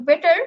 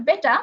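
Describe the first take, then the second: First: American accent, বেটার with a strong rolled-in r at the end; American বেটার, r pronounced. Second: British accent, বেটা with no r at the end; British বেটা, r left silent. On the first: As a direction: say বেটার the American way, r clearly sounded. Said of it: "আমি আরটাকে অনেক বেশি এতে উচ্চারণ করলাম". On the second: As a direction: drop the r in বেটা, British style. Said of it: "British accent". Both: Shown as a demonstration.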